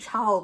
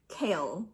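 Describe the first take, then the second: First: The name begins with a ch sound. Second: The name begins with a k sound. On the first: The speaker calls it wrong. "I always want to say Chal because that's how it's like spelled" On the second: The speaker calls it right. "but it's Kale. K-all"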